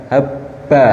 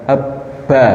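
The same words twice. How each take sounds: No difference in how they are said.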